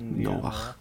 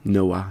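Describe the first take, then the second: First: The name ends in a throaty ch sound. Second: The name ends without a throaty sound. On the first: This is the Dutch form of the name. "in het Nederlands eigenlijk Noach" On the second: This is the form used in Irish. "maar Noah zegt ze in het Iers"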